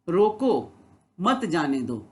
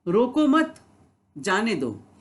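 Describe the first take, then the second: First: There is a pause after रोको. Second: There is a pause after मत.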